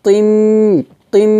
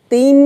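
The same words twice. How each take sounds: First: তিম with a heavy Arabic t and held hum; thick T. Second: তিম with a thin, light t. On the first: Teacher showing the correct letter, তিম with a thick t. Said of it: "তটা আমরা একটু মোটা করব". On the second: Teacher showing what not to say, তিম with a thin t. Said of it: "হবে না". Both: Shown as a demonstration.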